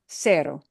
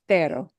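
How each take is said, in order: First: The first consonant is an s sound. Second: The first consonant is a th sound. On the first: This is how it sounds in Latin America. "In Latin America" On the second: This is how it sounds in Spain. "In Spain"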